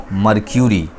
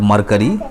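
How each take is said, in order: First: मर्क्यूरी said as mar-kyu-ri with a clear y glide; correct pronunciation. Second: मरकरी said as mar-ka-ri, no y sound; wrong pronunciation. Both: Shown as a demonstration. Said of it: "it's not मरकरी".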